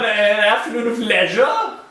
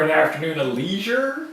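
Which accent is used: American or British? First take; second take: British; American. First: It is said in a put-on British accent. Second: It is said in a plain American accent. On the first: "You do your posh British British accent" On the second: "if I was just a plain old spoken American"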